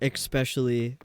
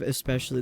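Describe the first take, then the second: First: A K sound is added before the P. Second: There is no K sound before the P. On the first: The speaker calls it wrong. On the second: The speaker calls it right.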